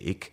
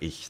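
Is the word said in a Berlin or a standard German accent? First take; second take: Berlin; standard. First: The word is said in a Berlin accent. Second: The word is said in standard German. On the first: "Berlin has a different accent where instead of ich they say ich" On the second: "instead of ich"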